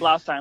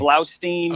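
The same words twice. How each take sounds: First: The last syllable sounds like 'stine'. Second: The last syllable sounds like 'steen'. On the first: The speaker calls it right. "like Frankenstein" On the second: The speaker calls it wrong. "No one pronounces it right. They say"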